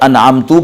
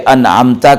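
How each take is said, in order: First: The word ends with a 'u' vowel. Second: The word ends with an 'a' vowel. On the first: I bestowed favor on them. The speaker calls it wrong. "अगर अनअमतू पढ़ेंगे तो इसका मतलब होगा जिन पर मैंने इनाम नाजिल किया" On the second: You bestowed favor on them. The speaker calls it right. "अनअमता का माना हमारे रब जिस जिन पर आपने इनाम नाजिल किया"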